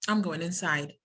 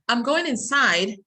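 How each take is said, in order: First: The voice falls at the end of inside. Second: The voice rises at the end of inside. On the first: The thought is finished. "it's a statement خلاص following intonation" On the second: There is more still to say. "rising and then falling"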